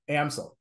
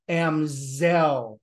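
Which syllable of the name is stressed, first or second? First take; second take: first; second. First: The stress is on the first syllable. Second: The stress is on the second syllable. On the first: The speaker calls it right. "the pronunciation is Amsel" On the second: The speaker calls it wrong. "with the emphasis on the second syllable"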